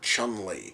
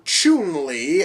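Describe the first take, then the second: First: The first vowel is a short u sound. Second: The first vowel is a long oo sound. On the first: "as opposed to a fucking U" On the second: "as if there's two O's in her name"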